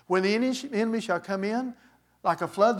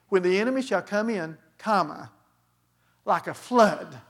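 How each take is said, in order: First: It runs on with no break after "come in". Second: There is a break after "come in".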